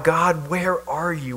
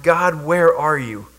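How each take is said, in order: First: Slow, pleading cry to an absent God. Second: Slow, humble question to God; repentant. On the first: A captive crying out to God, slow and pleading. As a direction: plead slowly, softer, reaching upward. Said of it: "So we cry out". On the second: A repentant believer asking God, slow and humble. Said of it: "an attitude of repentance". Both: Acted.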